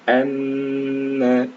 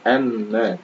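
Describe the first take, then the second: First: The doubled m sound is held long. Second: The doubled m sound is cut short. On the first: The speaker calls it right. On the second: The speaker calls it wrong.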